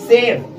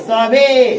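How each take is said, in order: First: The final e is silent, the a long. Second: The a is short and final e sounded. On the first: The speaker calls it right. "ई यहाँ पे क्या है? Silent है। इसलिए इसे हम पढ़ रहे हैं" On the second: The speaker calls it wrong. "गलत होगा"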